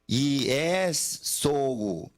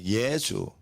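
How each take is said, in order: First: The word is said slowly, each syllable distinct. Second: The word is said quickly, syllables run together.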